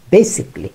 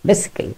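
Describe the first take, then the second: First: Basically said as "bay-sik-lee"; basically with three syllables; correct basically. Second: Basically said softer as "bay-si-kel"; mock the wrong basically quietly; basically with the "-kel" ending. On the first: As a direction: drop the middle syllable of basically. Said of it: "এর উচ্চারণ". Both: Shown as a demonstration.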